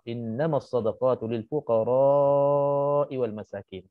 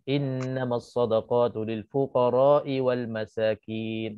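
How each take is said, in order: First: The vowel in fuqara is held long. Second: The vowel in fuqara is short, not lengthened. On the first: The speaker calls it right. "membaca dengan madkan fuqara" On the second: The speaker calls it wrong. "tak panjangkan fuqara"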